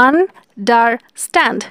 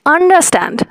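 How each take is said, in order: First: understand said slowly in three parts; slow down and split understand; syllables drawn out. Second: Said in the usual way. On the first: Shown as a demonstration. Teacher counting syllables for students, slow. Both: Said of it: "three syllable".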